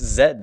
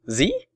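First: The letter is said as 'zed'. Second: The letter is said as 'zee'. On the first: The speaker is using the British way. The speaker calls it right. "It's Zed" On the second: The speaker is using the American way. The speaker calls it wrong. "What are you, American?"

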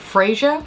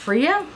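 First: The first syllable sounds like 'Fray' in Frasier. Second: The first syllable does not sound like 'Fray'. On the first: The speaker calls it wrong. "I think I called it Freya, like Frasier" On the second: The speaker calls it right. "I think it's Freya"

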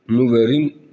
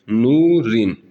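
First: A 'v' sound is pronounced inside the word. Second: No 'v' sound; the 'u' vowel is lengthened. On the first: The speaker calls it wrong. "Nuverin demiyoruz" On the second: The speaker calls it right. "Vav harfini hiç görmezden geliyoruz"

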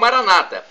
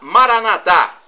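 First: The stress is on the second-to-last syllable. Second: The stress is on the last syllable. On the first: This is the Protestant or evangelical pronunciation. "pronúncia protestante ou evangélica, com a tônica na penúltima sílaba" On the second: "pronúncia católica, Maranatá com a tônica na última sílaba"

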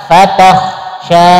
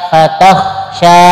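Both takes have the same delivery.

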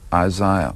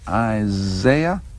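First: The name is said in the non-American way. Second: The name is said in the American way. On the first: The speaker calls it right. "the proper way to do it is Isaiah" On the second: The speaker calls it wrong. "A lot of Americans say Isaiah"

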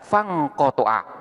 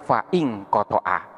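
First: The 'i' vowel after 'fa' is dropped. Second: The 'i' vowel after 'fa' is pronounced. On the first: The speaker calls it right. "di sini bacaannya adalah fangkotoa" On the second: The speaker calls it wrong. "bukan faingkotoa"

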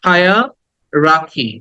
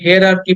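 First: The word begins with a 'high' sound. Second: The word begins with a 'here' sound. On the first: The speaker calls it right. "রাটাকে একটু টেনে বলতে হবে" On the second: The speaker calls it wrong. "এটাকে আমরা হেয়ারার্কি বলি"

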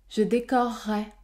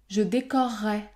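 No difference in how they are said.

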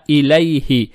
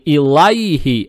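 First: The vowel after L is tinged toward e. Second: The vowel after L is a plain open a. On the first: The speaker calls it right. "Фатха над буквой лям приобретает оттенок я" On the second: The speaker calls it wrong. "не илайхи"

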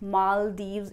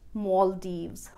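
First: The stress is on the second syllable. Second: The stress is on the first syllable. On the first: "also an acceptable pronunciation" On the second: "I prefer to speak it as Maldives"

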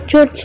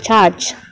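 First: It is read the way it is spelled. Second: It sounds like the English word charge. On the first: The speaker calls it wrong. "jangan dibaca church ya" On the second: The speaker calls it right. "dibaca charge"

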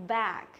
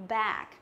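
The two takes are said the same way.

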